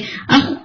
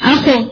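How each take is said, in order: First: The kh is cut off very quickly. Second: The kh ends with an added bouncing vowel. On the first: "ساؤنڈ آپ کی بہت کوئکلی جا رہی ہے اخ ختم ہو رہی ہے" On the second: "اخ کر کے اخو یوں نہیں"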